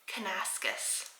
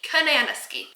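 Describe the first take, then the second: First: The name ends with a 'skus' sound. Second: The name ends with a 'skee' sound. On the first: "Kanaskus is how you pronounce that" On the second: "Like banana, ski"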